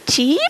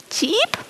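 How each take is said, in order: First: Plain chirp. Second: "tschiep" chirped much higher and softer, rising; shy chirp. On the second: Shy lady sparrow cheeping to the anxious sparrow, soft high chirp. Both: Acted.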